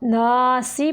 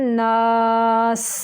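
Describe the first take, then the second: First: The word ends with a short i vowel. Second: The word ends on a bare s sound. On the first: The reading continues into the next verse. "ना सी पढ़ेंगे मिलाने की सूरत में" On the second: The reading stops at the end of the verse. "अगर हम इधर वक़फ़ करें... सीन को साकिन करेंगे"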